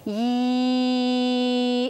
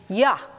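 First: The y sound has no 'uh' vowel after it. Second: The y sound is followed by an 'uh' vowel. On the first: The sound is easy to blend into a word. The speaker calls it right. "But if I were taught instead, ye, it would be lots easier" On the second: The sound is hard to blend into a word. The speaker calls it wrong. "my dad told me this was yuh"

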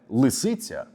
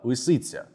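First: The L is firm, with the tongue on the teeth. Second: The L is slack, with a lazy tongue. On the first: The speaker calls it right. "вийде не лисиця" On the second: The speaker calls it wrong. "а лисиця. Я думаю, ви чуєте різницю"

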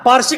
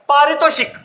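First: The word is clipped and garbled. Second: The word is pronounced fully with every syllable. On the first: The speaker calls it wrong. "उच्चार व्यवस्थित करा. पार्शिक नाही" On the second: The speaker calls it right. "पारितोषिक. उच्चार व्यवस्थित करा"

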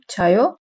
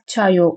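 First: It has emphasized question intonation. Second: It has flat statement intonation. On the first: Do you sleep? "vurgulayarak soru tonunda sorduğumuz zaman" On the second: I sleep. "uyuyorum uyurum"

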